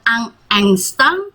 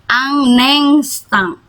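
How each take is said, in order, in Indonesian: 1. Kedua kata itu diucapkan terpisah. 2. Bunyi n langsung menyambung ke instant. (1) "bukan un instant" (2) "N ketemu I, jadinya un instant"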